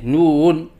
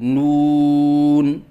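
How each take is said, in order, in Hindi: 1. आवाज़ शब्द में ऊपर-नीचे लहराती है। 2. आवाज़ पूरे शब्द में स्थिर रहती है। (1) "लहराव के साथ पढ़ना" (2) "सही अदायगी है"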